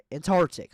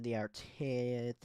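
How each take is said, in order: First: Antarctic blurted loud and higher; emphatic correction. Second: Said in the usual way. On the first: Real, not acted. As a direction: snap out Antarctic as the fix.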